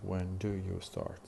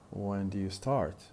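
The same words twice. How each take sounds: First: Do and you are said as separate full words. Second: Do and you merge into one weak syllable. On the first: "instead of saying when do you start" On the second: "we tend to combine them in a single weak syllable"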